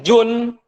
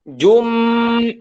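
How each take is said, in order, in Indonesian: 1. Suku kata jum berakhir dengan bunyi n. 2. Suku kata jum berakhir dengan bunyi m. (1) "tidak boleh jun"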